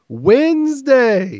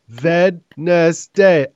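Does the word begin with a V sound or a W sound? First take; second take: W sound; V sound. First: The word begins with a W sound. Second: The word begins with a V sound.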